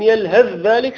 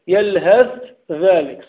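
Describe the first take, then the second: First: The th sound merges into the next word. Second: The th sound is kept separate from the next word. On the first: The speaker calls it right. "لكن يلهث ذلك سهلة" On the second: The speaker calls it wrong. "لو لم أدغم يكون صعب"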